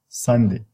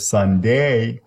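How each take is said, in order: First: The second syllable is short and weakened. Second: The second syllable is full and long. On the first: The speaker calls it right. "the first syllable has the primary stress. And then the second one becomes shorter" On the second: The speaker calls it wrong. "I don't say Sunday"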